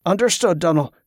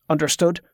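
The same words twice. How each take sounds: First: Mildly chastened acknowledgement. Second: "Understood?" with a rising question tune; "Understood?" as a cool, rising question; stern check. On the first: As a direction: accept the rebuke meekly. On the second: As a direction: demand assent with "Understood?", lifting at the end. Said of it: "his tone turning cold". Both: A narrator's reading.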